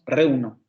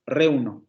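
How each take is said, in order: Both takes have the same delivery.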